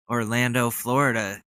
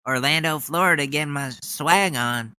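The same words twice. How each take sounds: First: Said in the usual way. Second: Fired-up Ted Cruz. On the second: Retold or imitated. Mocking a politician hyping a crowd, fired-up swagger. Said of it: "I've never heard Ted Cruz get so fired up".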